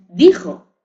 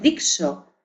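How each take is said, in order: First: The middle consonant is a harsh throaty 'j' sound. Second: The middle consonant is a soft 'sh' sound. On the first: This is how it is said today. The speaker calls it right. "es dijo" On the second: This is how it was said in the Middle Ages. The speaker calls it wrong. "dixo en la Edad Media. No es dixo"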